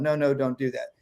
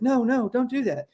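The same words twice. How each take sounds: First: Said in the usual way. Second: High, frazzled mock-parent plea; frantic parent. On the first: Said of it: "you failed as a parent". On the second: Harried parent chasing kids round the house, high frazzled plea. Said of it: "those parents that are chasing their kids".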